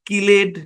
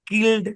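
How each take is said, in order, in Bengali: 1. এই -ed ending টি একটি অতিরিক্ত syllable হিসেবে বলা হয়। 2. এই -ed ending টি কোনো অতিরিক্ত syllable যোগ করে না। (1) "এগুলো ভুল উচ্চারণ" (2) "সঠিক উচ্চারণ হচ্ছে"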